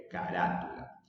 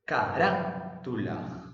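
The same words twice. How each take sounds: First: Said in the usual way. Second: "Carátula" slowed, RÁ punched and held; ca-RÁ... tula, showing the accent in "Carátula"; stress on RÁ. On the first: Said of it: "Separemos en sílabas". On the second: Shown as a demonstration. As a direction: hit RÁ, pause, then tu-la in "Carátula". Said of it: "la que se pronuncia con mayor fuerza de voz".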